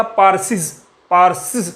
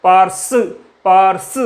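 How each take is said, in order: First: पारसिस said with an extra hissing सिस syllable at the end; wrong hissing form. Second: पारस said cleanly, with no extra सिस syllable; correct form. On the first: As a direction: say पारसिस, adding a hissed सिस after पारस. (पारसिस में अंत का सिस वाला हिस sound जोड़कर बोलें) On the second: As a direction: say just पारस and stop on the स. (पारस को बिना अतिरिक्त सिस के साफ़ बोलें) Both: Shown as a demonstration. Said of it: "एक साउंड निकलता है पारसिस".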